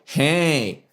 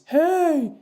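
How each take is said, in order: First: A sharp, nasal, twangy voice is used. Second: A light, high falsetto head voice is used. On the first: "and the pharyngeal" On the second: "the head voice"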